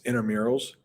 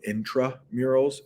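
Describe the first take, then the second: First: The first part is not said clearly as intra. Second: The first part is said clearly as intra. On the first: This is the speaker's own habitual pronunciation. The speaker calls it wrong. "It's the way I pronounce it" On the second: This is how the word actually should be said. The speaker calls it right. "but it's actually intramurals"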